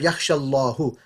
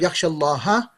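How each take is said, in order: First: The word Allah ends with a 'u' vowel. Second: The word Allah ends with an 'a' vowel. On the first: Allah is the one who fears. The speaker calls it wrong. "which means Allah fears" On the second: Someone fears Allah. The speaker calls it right. "Instead of"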